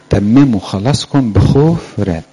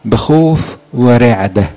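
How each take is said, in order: First: Said in the usual way. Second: Each word drawn out, بخوف stressed hard; stretched, solemn بخوف ورعدة; slow emphasis. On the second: Shown as a demonstration. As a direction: slowly weigh بخوف ورعدة. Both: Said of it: "عارفين الآية؟".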